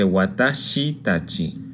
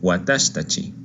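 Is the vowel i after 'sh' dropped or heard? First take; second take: heard; dropped. First: The i after sh is clearly pronounced. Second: The i after sh is dropped. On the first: The speaker calls it wrong. "No se dice watashitachi" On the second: The speaker calls it right. "la letra shi de watashi omite su i por cuestiones fonéticas"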